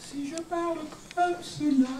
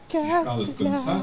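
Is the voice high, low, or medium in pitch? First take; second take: high; medium. First: The voice is high-pitched. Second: The voice is medium-pitched.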